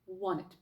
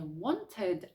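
First: The T after the N is dropped. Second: The T after the N is clearly pronounced. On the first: The speaker calls it right. "а" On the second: The speaker calls it wrong. "не"

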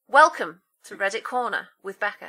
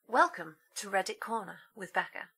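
First: The greeting is spoken loudly with high energy. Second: The greeting is spoken quietly with low energy. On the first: "She's woken up" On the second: "Dead low"

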